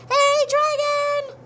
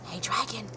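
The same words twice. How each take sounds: First: It is shouted loudly. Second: It is whispered softly.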